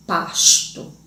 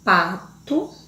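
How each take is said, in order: First: Pasto said with the S drawn out and clear; teacher spelling out the S in pasto; S sound stressed. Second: Said in the usual way. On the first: Shown as a demonstration. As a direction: lean on the S in pasto so it stands out. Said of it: "a introdução da consoante S". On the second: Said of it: "Ao outro exemplo".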